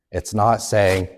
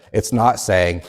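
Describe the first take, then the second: No difference in how they are said.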